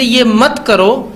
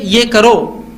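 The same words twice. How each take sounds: First: मत drawn out and stressed, slowly. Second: ये करो slow, both words given weight; stressed alternative. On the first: Teacher quoting a parent's prohibition, stress on मत. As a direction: lean firmly on the word मत. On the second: Teacher giving parents the alternative, ये करो stressed slowly. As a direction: spell out ये करो slowly and emphatically. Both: Shown as a demonstration.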